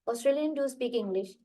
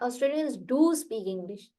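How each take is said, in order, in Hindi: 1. शब्द 'do' बिना अतिरिक्त ज़ोर के बोला जाता है। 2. शब्द 'do' पर तेज़ ज़ोर देकर बोला जाता है। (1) "मैं बताऊँ कैसे पढ़ूंगी" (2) "तो डू पे फोर्स नहीं"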